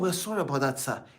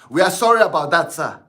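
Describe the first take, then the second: First: It is said at a normal volume. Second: It is said loudly, like shouting.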